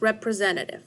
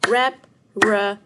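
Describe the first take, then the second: First: Said in the usual way. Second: "Representative" split into five loud, separate beats; syllable by syllable. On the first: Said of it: "see how many syllables". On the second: Shown as a demonstration. Teacher splitting a long word for pupils, "Representative" in spaced syllables. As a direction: punch out "Representative" one syllable at a time, pausing between. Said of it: "split the word representative into syllables".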